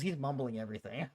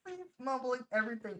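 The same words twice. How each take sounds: First: Said in the usual way. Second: High, laughing remark; through laughter. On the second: Real, not acted. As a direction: squeeze it out while cracking up. Cracking up at clip's speaker.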